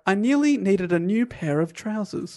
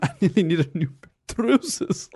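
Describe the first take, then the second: First: It is said in the speaker's normal accent. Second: It is said in a put-on Scottish accent.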